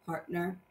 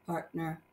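Both takes have the same delivery.

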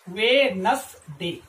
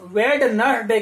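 First: वेडनेसडे said slowly as wenz-day, D silent; correct pronunciation. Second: वेडनेसडे with the D sounded, ved-nes-day; wrong pronunciation. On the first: Teacher modelling the right way, वेडनेसडे slow with silent D. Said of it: "इसका जो pronunciation होगा". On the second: Teacher showing students the mistake, वेडनेसडे with D sounded. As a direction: say वेडनेसडे the common wrong way, pronouncing the D. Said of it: "वो गलत pronunciation है". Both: Shown as a demonstration.

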